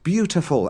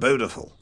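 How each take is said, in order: First: It is said with a 'y' sound after 'b'. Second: It is said with no 'y' sound after 'b'. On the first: The speaker calls it right. "saying beautiful" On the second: The speaker calls it wrong. "every time he said beautiful"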